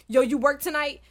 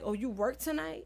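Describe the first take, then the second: First: It is said in a casual, friendly tone. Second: It is said in a suspicious, accusing tone.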